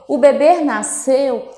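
The pitch rises at the end. The speaker asks whether the baby was born. "eu estou fazendo uma pergunta"

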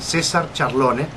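The name is said with Spanish pronunciation. "I'll say it in Spanish pronunciation"

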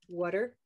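The first vowel sounds like the vowel in 'cup'. "in some parts of the United States and North America, it moves up to hear"

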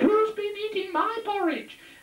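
The voice is very high. The mummy bear is speaking. "the mummy bear had a very high voice"

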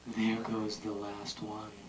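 It is said in a soothing tone.

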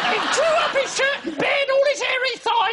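It is read in an exaggerated comic character voice.

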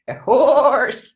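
It is said in a goat voice.

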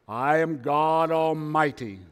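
It is said in a deep, booming put-on voice. The speaker calls it right.

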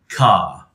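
The final R sound is dropped. "drop it when it is at the end of a word, followed by a pause"

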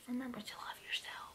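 It is whispered.

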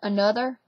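The middle consonant is a 'th' sound. "another becomes another"

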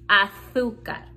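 The z sounds like th.

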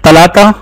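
The word begins with a t sound. This is how locals speak in their dialect. The speaker calls it right. "इतनैन और तलाता ये इनका लहजा है"

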